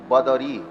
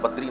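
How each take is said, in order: First: It is said in three syllables, badari. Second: It is said in two syllables, badri. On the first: The speaker calls it right. "बदरी ऐसा है" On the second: The speaker calls it wrong. "लोग कहते हैं बद्री नारायण, बद्री शब्द गलत है"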